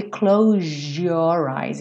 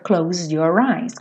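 First: "close your eyes" with a zh sound, "clowzhor". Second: "close your eyes" with a clear Z before "your". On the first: Teacher giving the common J version. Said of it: "ganha um som de J". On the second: Teacher giving the Z version first. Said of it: "Esse S que acaba tendo um som de Z". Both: Shown as a demonstration.

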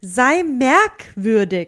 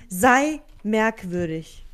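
First: "Sei merkwürdig" very slow and a bit louder; slow stress on merkwürdig. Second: "Sei merkwürdig" very slow, merkwürdig drawn out; slow stress on merkwürdig. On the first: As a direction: lean on "merkwürdig", slow and emphatic. ("Sei merkwürdig" langsam und betont) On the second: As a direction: drag out "merkwürdig" slowly, every syllable. ("Sei merkwürdig" ganz langsam, Betonung auf merkwürdig) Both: Shown as a demonstration. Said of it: "Betonung liegt auf merkwürdig".

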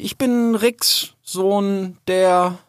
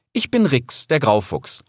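First: High, slow, halting introduction; unsure. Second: Assured introduction, falling to a settled end; firm tone. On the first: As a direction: introduce yourself haltingly, losing your thread. (verunsichert, stockend) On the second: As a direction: state your name with resolve. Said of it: "sagte dann in bestimmtem Ton". (bestimmt, selbstsicher) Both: A narrator's reading.

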